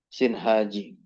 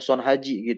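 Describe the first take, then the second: First: The first syllable has the vowel i. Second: The first syllable has the vowel a.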